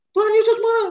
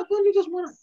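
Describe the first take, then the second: First: Tuhan Yesus shouted high and loud; excited alarm. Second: Said in the usual way. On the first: Acted. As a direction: sound the alarm to the kids: Tuhan Yesus marah!. Children told Jesus is angry. (teriak kaget, tinggi dan keras)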